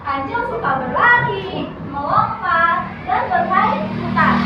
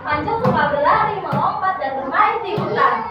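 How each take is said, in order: First: The list is read with pauses between items. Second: The list is read without pauses between items. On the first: The speaker calls it right. "setelah ada tanda koma, ibu bacakan" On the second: The speaker calls it wrong. "ibu bacakan yang sebelumnya dulu"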